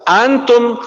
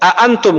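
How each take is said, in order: First: One glottal stop is dropped, leaving one syllable. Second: Both glottal stops are clearly pronounced. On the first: The speaker calls it wrong. "nggak bisa antum, kebanyakan udah hilang aja tuh hamzah keduanya" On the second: The speaker calls it right.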